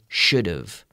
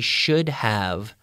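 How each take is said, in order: First: The words blend, with 'have' reduced to 've. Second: Both words are said fully and separately. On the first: "but we say should've" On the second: "we say sh- he should have worked harder"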